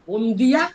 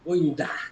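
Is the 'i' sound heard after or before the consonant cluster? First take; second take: after; before. First: The i sound comes after the consonant cluster. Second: The i sound comes before the consonant cluster. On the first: This is the full literary form. "মানে আসলে বন্দিয়া" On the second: This is the spoken dialect form. "উপনিহিতি ঘোষিত আগে চলে এসেছে"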